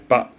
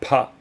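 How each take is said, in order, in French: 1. La première consonne est non aspirée. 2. La première consonne est aspirée. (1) "c'est pas un expiré" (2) "C'est pas pas"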